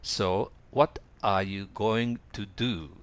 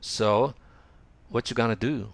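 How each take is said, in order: First: It is said in full, careful form. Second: It is said casually, with reduced words.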